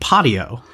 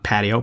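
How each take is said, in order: First: The word is said in an odd, unfamiliar way. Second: The word is said in the familiar English way. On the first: This is how the voice assistant said it. The speaker calls it wrong. "I've never heard that pronounced that way" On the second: This is how it is normally said. The speaker calls it right. "not patio"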